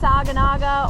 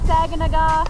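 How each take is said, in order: First: The name ends with a 'naga' sound. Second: The name ends with a 'naw' sound. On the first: The speaker calls it wrong. "not Saginaga" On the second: The speaker calls it right. "pronounced Saginaw"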